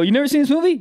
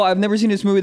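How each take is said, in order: First: Mock shocked question; incredulous. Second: Said in the usual way. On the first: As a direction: act stunned that they missed it. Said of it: "They go". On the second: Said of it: "You go".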